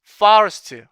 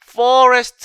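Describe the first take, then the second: First: The first vowel is a lower, open 'ah' sound. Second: The first vowel is a rounded 'aw' sound. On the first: The speaker calls it right. "이렇게 발음되는 현상이에요" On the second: The speaker calls it wrong. "이렇게 발음되지 않고"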